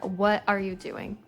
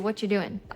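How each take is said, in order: First: Every word is said fully and clearly. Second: The words are swallowed and blurred together quickly. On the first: "It's super clear, easy to follow" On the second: "All of the words get swallowed"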